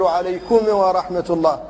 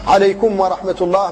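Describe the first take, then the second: First: The m is released with an echoing bounce. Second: The m flows smoothly into the next word. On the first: The speaker calls it wrong. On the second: The speaker calls it right.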